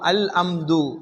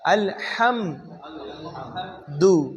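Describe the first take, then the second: First: The second word starts directly with a vowel. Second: The second word starts with a breathy h sound. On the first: The speaker calls it wrong. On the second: The speaker calls it right.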